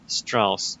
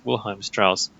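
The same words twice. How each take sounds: First: Said in the usual way. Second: Wilhelm said the German way, VIL-helm, not William; German name corrected. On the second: Shown as a demonstration. Correcting a misread name while reading a game article, German pronunciation.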